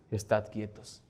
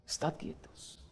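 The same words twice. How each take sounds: First: "Estad quietos" said low and soft. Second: "Estad quietos" fully whispered; "Estad quietos" whispered to the congregation. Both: Shown as a demonstration. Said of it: "Memoriza este pasaje".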